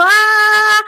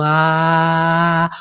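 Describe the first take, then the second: First: Grito agudo y fuerte de "ah"; suéltalo agudo y alto, sin corazón. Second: "ah" grave y sostenido; "Ah" desde el corazón. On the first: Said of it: "esa A no sirve para nada". ("¡Ah!" chillón y fuerte, mal ejemplo) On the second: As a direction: dilo grave, largo, desde el pecho. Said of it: "una A realmente de corazón". ("Ah" grave y largo desde el corazón) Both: Shown as a demonstration.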